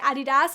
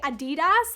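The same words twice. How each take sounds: First: Adidas is pronounced the usual British way. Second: Adidas is pronounced a non-British way. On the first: This is how people in the UK say it. "in the U K and everyone I know, they say Adidas" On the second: People in the UK do not say it this way. "We don't say Adidas"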